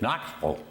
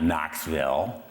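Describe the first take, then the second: First: The last syllable is reduced and swallowed. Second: The last syllable is a full, clear 'ville'. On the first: A local says it this way. The speaker calls it right. "if you're from Knoxville, it's Knoxville" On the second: An outsider says it this way. The speaker calls it wrong. "It's not Knoxville"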